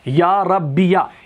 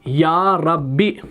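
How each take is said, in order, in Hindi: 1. यह लफ़्ज़ एक जोड़े गए 'ya' अक्षर पर ख़त्म होता है। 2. यह लफ़्ज़ छोटी 'i' आवाज़ पर ख़त्म होता है। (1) "या के ऊपर जबर के साथ" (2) "या के हज़फ के साथ"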